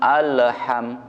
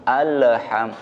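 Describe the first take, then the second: Both takes have the same delivery.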